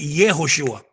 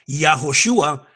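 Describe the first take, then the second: First: The first syllable has the vowel e. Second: The first syllable has the vowel a. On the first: The speaker calls it right. "se dice ye" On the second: The speaker calls it wrong. "no se dice ya"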